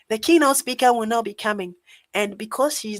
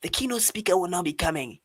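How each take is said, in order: First: Lightly voiced lady usher, a touch higher; hint at a woman's voice, playful and not fully committed; lady's voice. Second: Said in the usual way. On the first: Mimicking the usher who broke the news to him, in a mock lady's voice. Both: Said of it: "let me do a lady's voice".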